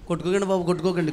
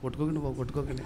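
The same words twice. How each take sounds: First: It is said fairly loudly and strongly. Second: It is said weakly, like fading out. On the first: The device is still fully charged. "ఫస్ట్లో కొంచెం గట్టిగా ఉంటుంది" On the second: The device's charge is running out. "చివరికి వచ్చినప్పుడు"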